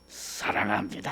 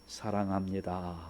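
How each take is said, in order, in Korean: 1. 이를 악물고 거칠게 말합니다. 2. 따뜻한 어조로 부드럽게 말합니다. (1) "막 그냥 이를 악물고 한단 말이죠" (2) "좀 편안한 마음으로 다정하게 해야 돼요"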